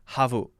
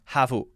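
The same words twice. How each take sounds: First: The word is said as two syllables. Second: The same.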